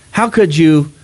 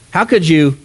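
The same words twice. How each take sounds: The two takes are said the same way.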